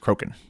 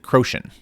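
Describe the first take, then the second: First: The name is said like 'Croken'. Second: The name is said like 'Croatian'. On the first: The speaker calls it right. "but I do know now that it is Croken" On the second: The speaker calls it wrong. "I always uh, pronounce it Croatian"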